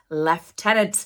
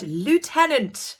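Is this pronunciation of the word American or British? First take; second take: British; American. First: The word is said with a British pronunciation. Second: The word is said with an American pronunciation. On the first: The speaker calls it right. "in the U K pronounced lieutenant" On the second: The speaker calls it wrong. "That is American phrasing"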